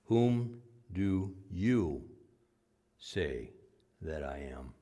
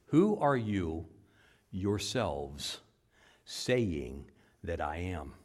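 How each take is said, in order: First: Very slow, sinking to a hush; slow emphatic question. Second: Slow, YOURSELVES leaned on and sinking soft; emphatic yourselves. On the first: Preacher slows to press the question on his flock. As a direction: draw out each word of the question. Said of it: "could be written this way". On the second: Preacher rewording the verse with slow emphasis. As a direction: stretch out who are you yourselves. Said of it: "It's actually could be written this way". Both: Shown as a demonstration.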